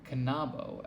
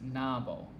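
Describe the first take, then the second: First: The initial K sound is pronounced. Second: The initial K sound is left out. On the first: The speaker calls it right. "K and N are pronounced in canabo" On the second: The speaker calls it wrong. "it keeps pronouncing canabo as nabo"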